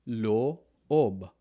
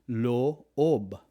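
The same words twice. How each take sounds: Both takes have the same delivery.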